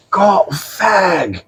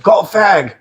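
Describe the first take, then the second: First: High, drawn-out mock British voice; each word stretched out high; slowed-down repeat. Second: High mock British bloke; put-on British voice at normal pace; British stranger repeating himself. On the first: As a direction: imitate the stranger saying it very slowly. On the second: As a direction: imitate the stranger asking in a high voice. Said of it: "Can you say that one more time".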